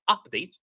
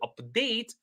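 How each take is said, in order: First: The stress is on the first syllable. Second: The stress is on the second syllable. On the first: It is used as a noun. The speaker calls it wrong. "not update" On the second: It is used as a verb. The speaker calls it right. "to update society for the better"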